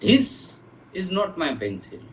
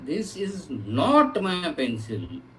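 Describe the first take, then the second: First: The word 'this' carries the emphasis. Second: The word 'not' carries the emphasis. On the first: A different object is the speaker's pencil. "My pencil is something else" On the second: It is flatly denied that the pencil is the speaker's. "ये pencil मेरी नहीं है"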